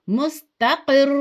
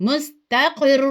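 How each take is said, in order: The two takes are said the same way.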